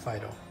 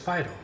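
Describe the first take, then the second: First: The middle consonant sounds like d, like Fido. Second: The middle consonant is a clear t sound. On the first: The speaker calls it wrong. "not F-I-D-O" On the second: The speaker calls it right. "It's phyto"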